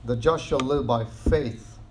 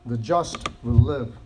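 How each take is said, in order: First: "The just shall live by faith" slow and deliberate; slow emphatic quote. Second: "just" slow and weighty; slow emphasis on just. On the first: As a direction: spell it out slowly. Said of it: "The emphasis here in Hebrews is faith". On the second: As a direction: lean on just, slowly. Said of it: "I just want to highlight that to you". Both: Shown as a demonstration.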